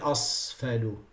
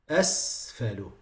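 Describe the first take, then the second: First: The s sound is heavy and emphatic. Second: The s sound is light and thin. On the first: The speaker calls it wrong. "you can't say أصفل" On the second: The speaker calls it right. "Both of them have to be clear from each other"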